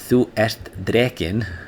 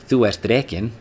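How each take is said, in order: First: Each word is said separately and clearly. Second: The words run together into one stream. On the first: "if you pronounce them separately like that" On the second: "when you say them together like an Icelander would"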